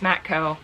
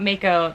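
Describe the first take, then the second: First: The name is said with a t sound. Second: The name is said without a t sound. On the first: The speaker calls it right. "It's Matco" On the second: The speaker calls it wrong. "I'm just saying it wrong. It's not Mako"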